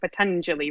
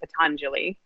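First: The vowels are said short. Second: The vowels are said long. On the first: The speaker calls it right. "They're both short us, so Patanjali rather than" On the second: The speaker calls it wrong. "rather than Patanjali"

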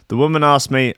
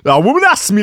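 First: It is said in the speaker's own accent. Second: It is said in a put-on South American accent.

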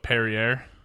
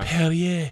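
First: The stress is on the first syllable. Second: The stress is on the last syllable. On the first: "that's how you say it?" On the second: "They hit it's the end"

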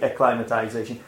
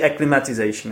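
First: The vowel sounds like in 'climate'. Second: The vowel does not sound like in 'climate'. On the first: The speaker calls it right. "It should be acclimatization. Like from the word climate" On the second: The speaker calls it wrong. "We say acclimatization, it's wrong"

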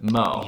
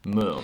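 First: The name is said with an 'oh' vowel. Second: The name is said with an 'oo' vowel. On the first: This is the common pronunciation. The speaker calls it wrong. "Mo is how people pronounce it" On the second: This is the original Danish pronunciation. The speaker calls it right. "But it's actually Moo"

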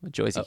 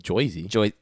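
First: The vowel is a plain standard 'er' sound. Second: The vowel is an 'oy' sound like New Jersey.

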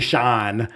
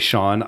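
First: The vowel is long and drawn out. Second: The vowel is short and neutral. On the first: It carries the speaker's home-region accent. "I can't not say Sean when I think about my name or my namesakes in Ohio" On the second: It is the careful form used when introducing oneself. "I will make sure I say Sean"

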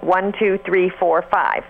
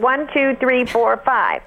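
First: The voice is pressed and tight at normal pitch. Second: The voice is pressed and tight at higher pitch. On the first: "if I do the counting with a little bit of pressing, it would sound like" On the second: "or at a higher pitch"

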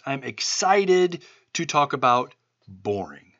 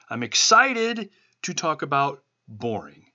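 First: It is said in a plain, flat tone. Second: It is said with a forced excited tone.

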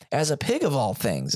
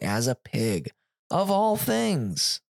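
First: The phrase is read with expressive, lively pitch. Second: The phrase is read with flat, unnatural pitch. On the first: The speaker calls it right. "is what it should have been said" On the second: The speaker calls it wrong. "The inflections were all wrong"

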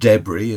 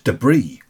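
First: It is said with a British pronunciation. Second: It is said with an American pronunciation. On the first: "as we call it here" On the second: "It's debris"

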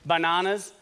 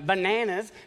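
First: It is said in the speaker's own non-American accent. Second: It is said in an American accent.

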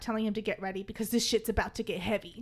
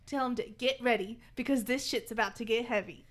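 First: The sentence runs on without a dramatic pause. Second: The sentence contains a deliberate dramatic pause. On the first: The speaker calls it wrong. "I had to say that differently" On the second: The speaker calls it right. "you gotta pause"

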